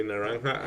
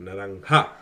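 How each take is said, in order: First: Said in the usual way. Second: "naranja" with the last syllable rushed; "naranja" said quickly at its end; accelerating ending. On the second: Retold or imitated. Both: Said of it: "it was accelerating right at the end".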